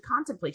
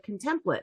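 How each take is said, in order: First: Said in the usual way. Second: "Contemplate" as con-TEM-plit, softly; misread pronunciation. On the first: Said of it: "it's actually contemplate". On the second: Retold or imitated. Student using her logic on "Contemplate", saying con-TEM-plit. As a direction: stress the middle of "Contemplate", like template. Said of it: "used her logic and she was like".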